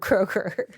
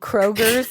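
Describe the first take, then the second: First: The name ends without an extra 's' sound. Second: The name ends with an extra 's' sound. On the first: The speaker calls it right. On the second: The speaker calls it wrong.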